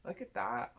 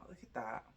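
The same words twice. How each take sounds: First: Higher, pleased look at that; delighted. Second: Lower, softer look at that, under the breath; soft aside. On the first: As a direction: show off the card with delight. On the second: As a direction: murmur it to yourself. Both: Real, not acted. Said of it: "said twice".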